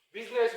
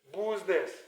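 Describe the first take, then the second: First: The first vowel is a short 'i' sound. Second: The first vowel follows the spelling 'u'.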